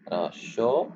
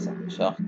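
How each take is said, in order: First: Short with the T said, English style; English word. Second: Short whispered with the final T; whispered model. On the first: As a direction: pronounce the final T of short. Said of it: "Prononce le T". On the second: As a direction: breathe short, sounding the T. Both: Shown as a demonstration.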